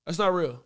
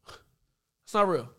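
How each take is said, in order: First: Said in the usual way. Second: Slow repeat. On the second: Real, not acted. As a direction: stretch every word out slowly. Same words repeated much slower.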